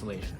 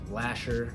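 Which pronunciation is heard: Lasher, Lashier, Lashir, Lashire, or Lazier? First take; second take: Lazier; Lasher. First: It is said with z, like lazier. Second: It is said with sh and ending in -er. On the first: The speaker calls it right. "the correct way to say our last name is Lazier" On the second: The speaker calls it wrong. "if you've pronounced it Lasher"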